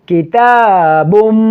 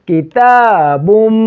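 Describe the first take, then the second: Both takes have the same delivery.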